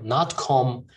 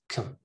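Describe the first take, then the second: First: The vowel is full and unreduced. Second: The vowel is reduced to a schwa. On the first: The speaker calls it wrong. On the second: The speaker calls it right. "pronounced with a schwa"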